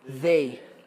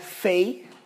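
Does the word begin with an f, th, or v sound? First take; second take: th; f. First: The word begins with a soft th sound. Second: The word begins with an f sound. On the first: The speaker calls it right. "O som do T H" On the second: The speaker calls it wrong. "Não é som de F também, não é fei"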